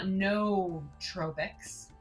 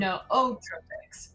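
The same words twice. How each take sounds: First: It starts with one syllable, 'noo', before 'tropics'. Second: It starts with two syllables, 'no-oh', before 'tropics'. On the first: The speaker calls it wrong. "it's not nootropics, which is what I thought" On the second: The speaker calls it right. "It's nootropics, right?"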